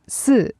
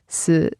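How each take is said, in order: First: It is said with the tone for four. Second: It is said with the tone for death. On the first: It means the number four. "four, si" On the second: It means death. "sounds like the word for death. Si"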